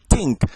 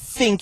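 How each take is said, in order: First: The word begins with a t sound. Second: The word begins with a th sound. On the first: This is the Jamaican patois way. "some T H words are actually pronounced just as T's. ... you say think" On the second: This is the standard English way. "Instead of saying think"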